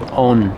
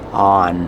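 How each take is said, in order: First: The vowel sounds like a learner's first guess. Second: The vowel sounds like a native speaker's. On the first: The speaker calls it wrong. "now your brain is going to tell you" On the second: The speaker calls it right. "You hear how much better that sounds?"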